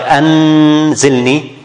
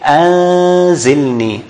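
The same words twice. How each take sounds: First: The n is pronounced fully and clearly. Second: The n is hidden, halfway toward the z. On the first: The speaker calls it wrong. "you don't pronounce the noon clearly, like anzilni, this is izhar, that's wrong" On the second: The speaker calls it right. "how we in practice do it, we say anzilni"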